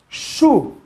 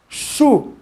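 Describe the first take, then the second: The two takes are said the same way.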